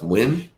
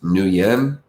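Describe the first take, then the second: First: The name sounds just like 'win'. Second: The name does not sound like 'win'. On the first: "I've also seen it pronounced Win, like W I N" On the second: "I've seen it pronounced Nguyen, N G U Y E N"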